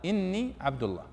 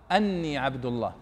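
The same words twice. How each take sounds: First: إني said as inni, short i-vowel; correct hamza with kasra. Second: أني said as anni, open a-vowel; deliberately wrong أني, anni not inni; wrong hamza with fatha. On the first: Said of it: "لا،". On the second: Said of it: "ما يصح أن تقول". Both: Shown as a demonstration.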